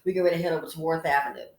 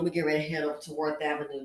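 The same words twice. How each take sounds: First: Louder and very fast boast; loud fast brag. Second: Fast. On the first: Host bragging to ladies about Worth Avenue shopping. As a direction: rattle it off proudly and loud. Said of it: "That's right". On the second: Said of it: "Trust me, Simply Said, I know what's up". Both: Shown as a demonstration.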